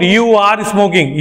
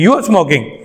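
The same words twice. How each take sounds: First: You are smoking said slowly with full are; separated you are. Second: You are smoking run fast as you're smoking; joined you're. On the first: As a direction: stretch you are apart. (you are smoking धीरे अलग अलग) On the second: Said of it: "थोड़ा fast कर लिया जाता है". (you are smoking तेज़ जोड़कर) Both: Shown as a demonstration.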